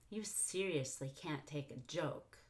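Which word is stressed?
joke. The stress falls on the word joke. "I could have stressed joke"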